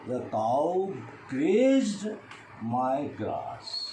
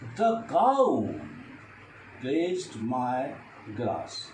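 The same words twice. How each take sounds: First: The stress falls on the word grazed. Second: The stress falls on the word cow. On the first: Grazing is what the cow did. "Now I stress on the grazed" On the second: No other animal but the cow did it. "If I stress the cow"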